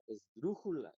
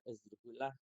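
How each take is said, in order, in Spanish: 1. El acento está en la penúltima sílaba. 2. El acento está en la última sílaba. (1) "Si la penúltima fuera la sílaba tónica" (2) "si la sílaba tónica fuera la última"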